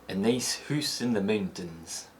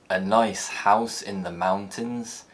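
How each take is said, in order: First: It is said in a Scottish accent. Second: It is said in a standard, non-Scottish accent. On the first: "in Scotland is likely to be pronounced" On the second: "a phrase like"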